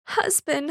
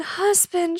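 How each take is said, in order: First: Crying out. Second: Crying out higher. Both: A narrator's reading. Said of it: "she cried".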